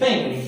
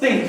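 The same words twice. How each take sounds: First: It begins with a soft hissing 'th' sound. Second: It begins with a hard 't' stop sound. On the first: The speaker calls it right. "your teeth will touch the tip of your tongue" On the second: The speaker calls it wrong. "It is not think"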